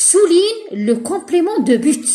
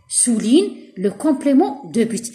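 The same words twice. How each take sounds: First: Slow, emphatic reading of the instruction; teacher dictating slowly; slow dictation. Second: Even slower, calmer repeat of the instruction; patient slow repetition. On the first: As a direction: read it out slowly like dictating to pupils. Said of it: "teacher reads exercise instruction". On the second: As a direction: say it again slowly, falling at the end. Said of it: "teacher repeats instruction". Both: Shown as a demonstration.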